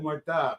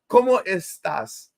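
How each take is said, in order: First: It is said in a Caribbean Spanish accent. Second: It is said in a standard Spanish accent.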